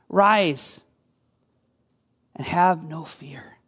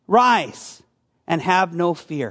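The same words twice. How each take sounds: First: 放轻声音，慢慢地，温柔地说"Rise and have no fear"，像在安慰人; 语气温和，让人安心; tender reassurance. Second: Said in the usual way. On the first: Acted. Jesus' words spoken gently to the listeners.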